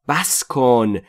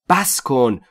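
No difference in how they are said.

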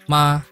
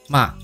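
First: The pitch stays high and level. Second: The pitch falls from high to low. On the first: "和华语第一声基本上是一样的" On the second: "从高到低"

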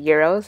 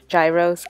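First: The word has a Greek-style pronunciation. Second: The word has an Americanized pronunciation. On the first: The speaker calls it right. "I think it might be gyros is how you pronounce it, really" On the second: The speaker calls it wrong. "I say it, the Americanized way"

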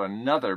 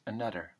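First: The th is said as a plain th sound. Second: The th is said almost like a d.

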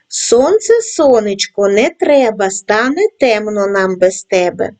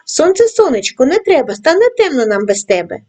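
First: The rhyme is read at a medium pace. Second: The rhyme is read at a fast pace. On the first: "кожного разу пришвидшуючи темп" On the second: "кожного разу пришвидшуючи темп"

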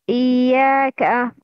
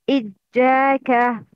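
First: The doubled middle consonant sounds like y. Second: The doubled middle consonant sounds like j. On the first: The speaker calls it right. "The right pronunciation is" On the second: The speaker calls it wrong. "The wrong pronunciation is"

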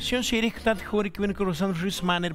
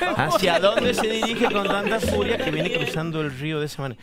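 First: The words are squeezed together and heavily reduced. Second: The words are said fully and clearly separated. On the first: This is how local people from the region talk. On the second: This spells out what the local speech means.

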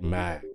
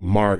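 First: The R sound is very light, almost gone. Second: The R sound is clearly pronounced. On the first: "that R is going to be pronounced very lightly" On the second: "it's not like Marg"

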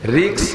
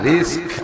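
First: The word ends with a k sound then s. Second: The word ends with an s sound then k. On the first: The speaker calls it wrong. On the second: The speaker calls it right.

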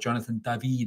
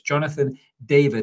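First: The name is said with French pronunciation. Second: The name is said with English pronunciation.

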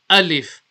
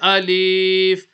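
First: The vowel is kept short. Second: The vowel is stretched out long. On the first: The speaker calls it right. "We say alif" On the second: The speaker calls it wrong. "we don't stretch it. We don't say alif"

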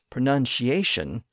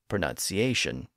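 First: The middle consonant is an 'sh' sound. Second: The middle consonant is an 's' sound. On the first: This was the older, eighteenth-century form. "The C in the middle and the T near the end both shifted to an SH" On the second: This is the reverted, present-day form. "the C has reverted back to its original pronunciation"

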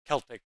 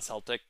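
First: The word begins with a K sound. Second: The word begins with an S sound. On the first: It refers to the ancient people, not the basketball team. The speaker calls it right. "hard C" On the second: It refers to the basketball team. The speaker calls it wrong. "not Celtic"

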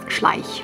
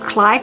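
First: The name is said with a German pronunciation. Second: The name is said with an English-like pronunciation. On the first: This is the proper German pronunciation. The speaker calls it right. "It's pronounced Schleich" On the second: This is how non-German speakers say it. The speaker calls it wrong. "They say something like Schleich or Schleich"

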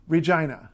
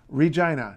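First: The middle syllable sounds like 'jye', rhyming with 'eye'. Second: The same.

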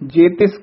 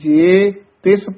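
First: The two words are run together without a break. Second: The first word is set apart from the next. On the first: The speaker calls it wrong. "जे तिस कठा नहीं कह देना है" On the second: The speaker calls it right. "जे नू नखेर के पढ़ना है"

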